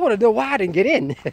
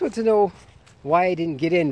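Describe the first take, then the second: First: It is said in a confrontational, aggressive tone. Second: It is said in a polite, respectful tone. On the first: The question sounds like a demand. The speaker calls it wrong. "It's all about intonation" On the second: The question is asked respectfully. The speaker calls it right. "be respectful"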